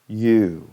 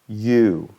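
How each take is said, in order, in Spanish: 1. Una vocal que se desliza, moviéndose durante el sonido. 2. Una vocal que se desliza, moviéndose durante el sonido.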